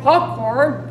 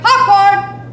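First: The pitch stays low and the voice is forced. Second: The pitch goes up, like calling across a space. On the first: The speaker calls it wrong. "are not going popcorn" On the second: The speaker calls it right. "They're going up in pitch"

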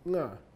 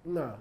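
First: The syllable is said with a high tone. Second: The syllable is said with a high tone.

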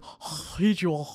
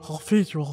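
First: The voice is not deep or guttural. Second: The voice is deep and guttural from the throat. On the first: "He's kind of like pervy" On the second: "Maybe some like guttural throat. Now he's creepy"

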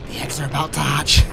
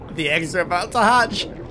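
First: It is said in a whisper. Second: It is said in a normal voice.

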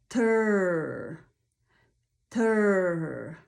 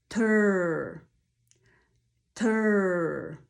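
Both takes have the same delivery.

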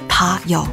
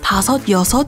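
First: Both numbers are cut to one syllable each. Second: Both numbers are said with two syllables each. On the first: "can be shortened to ... 다, 여" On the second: "5 and 6, 다섯, 여섯"

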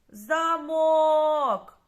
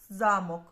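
First: The stress is on the second syllable. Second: The stress is on the first syllable. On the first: It means a lock. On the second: It means a castle.

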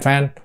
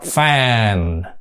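First: The vowel is clipped short into one note. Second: The vowel is drawn out over two notes. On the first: The speaker calls it wrong. "chứ họ không đọc fan fan fan cục lủng thành một cái nốt như Việt Nam mình" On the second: The speaker calls it right. "thành ra họ đọc fan, thông thả ra cái chữ a đó đó"

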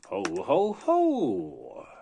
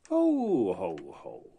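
First: It is said in a festive tone. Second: It is said in an unfestive tone.

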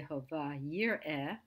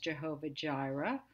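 First: The second word begins with a Y sound. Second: The second word begins with a J sound. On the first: The speaker calls it right. "It's actually Jehovah Yireh" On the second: The speaker calls it wrong. "we pronounce maybe as Jehovah Jireh"

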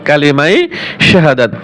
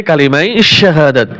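Both takes have the same delivery.

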